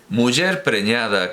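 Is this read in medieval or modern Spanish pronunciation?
medieval. It uses reconstructed medieval Castilian pronunciation. "lo leo a la antigua"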